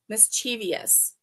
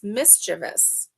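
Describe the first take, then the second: First: It ends in an added -ious, four syllables. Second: It ends in a plain -vous, three syllables. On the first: The speaker calls it wrong. "But people say mischievous all the time" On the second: The speaker calls it right. "there is no "-ious" in it. It's mischievous"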